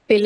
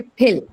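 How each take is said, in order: First: Said in the usual way. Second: "pill" with a strong puff of air on the p; aspirated P in "pill". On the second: Shown as a demonstration. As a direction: burst the p of "pill" into an h, a little louder. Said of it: "pill is aspirated".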